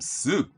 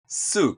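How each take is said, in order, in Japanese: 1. 音程は上がってから下がります。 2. 「soup」は音程が下がります。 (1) "みたいに上げて下げたりもします" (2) "音程を下げる"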